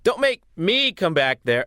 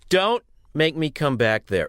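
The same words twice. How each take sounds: First: It sounds weak and unconvincing. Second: It sounds tough and stern, like a dad.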